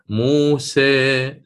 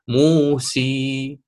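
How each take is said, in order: First: The final vowel is slightly raised toward e. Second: The final vowel is a full ee sound. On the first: "أريد أن آتي بالتقليل وهي الإمالة الصغرى" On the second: "أريد أن أتي بها ياء خالصة"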